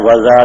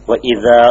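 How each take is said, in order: First: The glottal catch drops and the words run together. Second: The glottal catch before the second word is kept. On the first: The speaker calls it wrong. "വദ എന്ന് പറയും ഓതോ ഇല്ല" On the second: The speaker calls it right. "വ ഇദ എന്നല്ലാതെ"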